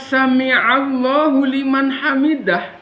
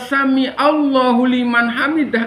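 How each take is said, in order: First: The first word is sami'a with a throaty catch. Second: The first word is sami without the throaty catch. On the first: God hears those who praise Him. The speaker calls it right. "bukan sami'a" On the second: It means God's poison for those who praise Him. The speaker calls it wrong. "dibaca sami Allah"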